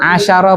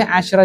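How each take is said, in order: First: Asyara with an a after sy; three-syllable reading. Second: Asyra with no vowel after sy; two-syllable reading. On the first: Teacher saying this variant is allowed, three syllables. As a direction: open the middle syllable, a-sya-ra. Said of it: "Asyara boleh". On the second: Teacher saying this variant is allowed too, two syllables. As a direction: close "asy" before saying "ra". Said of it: "asyra juga boleh". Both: Shown as a demonstration.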